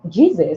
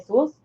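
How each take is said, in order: First: The name is pronounced with English sounds. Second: The name is pronounced with Spanish sounds. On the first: "in English it is Jesus" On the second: "in Spanish you would Jesus. Say Jesus"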